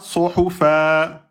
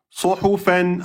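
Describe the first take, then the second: First: The word ends on a lengthened vowel. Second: The word ends with an n sound.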